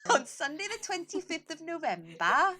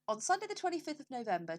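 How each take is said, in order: First: It is said in a put-on Welsh accent. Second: It is said in the speaker's ordinary accent.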